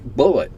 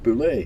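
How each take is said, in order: First: It ends with an 'et' sound, like bullet. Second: It ends with an 'ay' sound, like boo-lay. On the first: "I've been pronouncing it, pronouncing it like bullet" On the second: "It's pronounced boulet"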